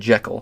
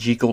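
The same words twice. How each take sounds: First: The name is said the later, altered way. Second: The name is said the original, intended way. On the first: This is how the name came to be said later. "Hollywood and slight tweaking the pronunciation" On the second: This is how the name was first meant to sound. "technically the way it was supposed to be pronounced"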